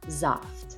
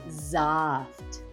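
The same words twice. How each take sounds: First: It is said at normal speed and loudness. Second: It is said louder and more slowly.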